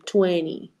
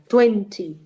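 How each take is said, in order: First: The t sound is soft and not stressed. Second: The t sound is crisp and fully pronounced. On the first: An American speaker says it. "Americans say twenty" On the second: A British speaker says it. "Y un British diría twenty"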